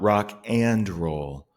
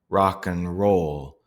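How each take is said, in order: First: The word 'and' keeps its full vowel. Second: The word 'and' is reduced to a schwa. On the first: The speaker calls it wrong. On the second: The speaker calls it right. "So it's actually going to sound like"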